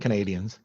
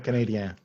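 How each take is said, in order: First: The name is said with an English pronunciation. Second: The name is said with a French pronunciation. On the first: This is how people in Barrie say it. "in Barrie, we say Canadians" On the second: This is how people in Quebec say it. "In Quebec, we'll say, you know, Canadien"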